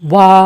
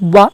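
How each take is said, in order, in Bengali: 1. স্বরধ্বনিটি দীর্ঘ করে টেনে পড়া হয়। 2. স্বরধ্বনিটি সংক্ষেপে ছোট করে পড়া হয়। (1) "এক আলিফ টেনে পড়তে হবে" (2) "এইভাবে পড়া যাবে না"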